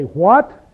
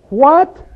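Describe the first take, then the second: First: "What?" asked as a simple question, rising. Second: High, loud, incredulous "What?" swooping upward; sarcastic disbelief. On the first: Shown as a demonstration. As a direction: ask "What?" with a rising tune, without sarcasm. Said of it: "and it's a question". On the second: Acted. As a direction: throw out "What?" as if you don't believe it. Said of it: "Paul is using a very sarcastic way".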